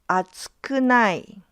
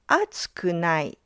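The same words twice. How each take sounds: First: The pitch does not drop after the first mora. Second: The pitch drops right after the first mora. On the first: "the pitch pattern is different" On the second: "The pitch drops right after the first mora"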